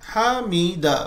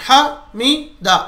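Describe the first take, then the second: First: The word flows smoothly without stretching. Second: The syllables come out in separate jerks. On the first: The speaker calls it right. "हामीदा बस।" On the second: The speaker calls it wrong. "ऐसा झटके झटके भी नहीं देना, हामीदा ऐसा भी नहीं, गलत है।"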